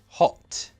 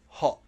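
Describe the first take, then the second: First: The final T is fully released. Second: The final T is a throat stop. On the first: "That's a true T" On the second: "The airflow must stop"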